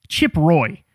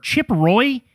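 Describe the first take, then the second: First: "Chip Roy." said lower with a falling, final tune; "Chip Roy." flat and falling, deadpan; flat statement. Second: "Chip Roy?" asked with a rising, disbelieving tune; "Chip Roy?" rising up at the end in mock disbelief; incredulous question. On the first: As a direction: drop "Chip Roy." down like a verdict. Repeats name flatly. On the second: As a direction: ask "Chip Roy?" as if the name can't be real. Mocking name in disbelief. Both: Real, not acted.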